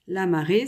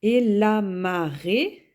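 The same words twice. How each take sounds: First: Said in the usual way. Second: "Et la marée" said slowly and louder; slow dictation. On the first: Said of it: "repeating the word before explaining it". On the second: Shown as a demonstration. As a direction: dictate "la marée" for the class to write. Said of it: "dictating then repeating the word".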